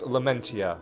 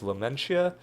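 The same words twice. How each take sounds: First: The t in the name is hard. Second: The t in the name is soft. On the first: The speaker calls it right. "with the hard T" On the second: The speaker calls it wrong.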